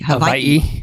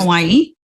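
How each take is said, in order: First: The middle consonant is a V sound. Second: The middle consonant is a W sound.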